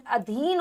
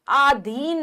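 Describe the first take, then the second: First: अधीन with a short first vowel, 'adheen'; brief a, then long ee in अधीन; correct short a. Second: अधीन with a long first aa, 'aadheen'; stretched aa opening अधीन; mispronounced अधीन. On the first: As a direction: say अधीन as 'uh-dheen'. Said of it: "अधीन होता है". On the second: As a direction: say अधीन slowly and wrongly as 'aa-dheen'. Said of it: "अधीन नहीं". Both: Shown as a demonstration.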